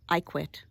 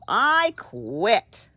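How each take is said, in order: First: It is said calmly, with little energy. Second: It is said excitedly, with more energy.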